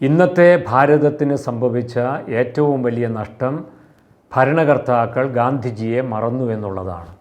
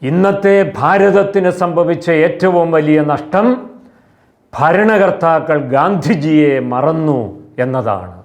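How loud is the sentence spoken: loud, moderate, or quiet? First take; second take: quiet; loud. First: The sentence is spoken in a low, quiet voice. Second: The sentence is spoken in a loud, raised voice. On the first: "താഴ്ന്ന ശബ്ദത്തിൽ പറയുന്നത് ഇങ്ങനെയാണ്" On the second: "ഉയർന്ന ശബ്ദത്തിൽ ഇങ്ങനെ പറയാം"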